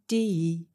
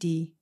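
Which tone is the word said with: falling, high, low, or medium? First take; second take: falling; low. First: The tone falls from mid to low. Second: The word is said on a low level tone. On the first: It means knife. "medium to low" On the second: It means neck.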